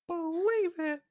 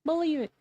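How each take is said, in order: First: High, excited anime shout; Naruto catchphrase. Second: Lightly voiced anime shout; Naruto catchphrase. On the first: Retold or imitated. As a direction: yell it like a ninja kid. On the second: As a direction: echo it like a ninja kid. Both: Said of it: "I like the Naruto bit".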